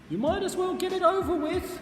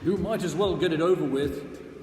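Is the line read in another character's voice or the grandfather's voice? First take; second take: another character; grandfather. First: It is read in another character's put-on voice. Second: It is read in the grandfather's put-on voice. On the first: The speaker calls it wrong. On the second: The speaker calls it right.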